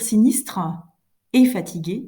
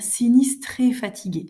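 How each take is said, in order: First: The final e of sinistre is sounded separately. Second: The final e of sinistre is swallowed. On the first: The speaker calls it wrong. "vous ne devez pas dire" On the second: The speaker calls it right. "mais bien"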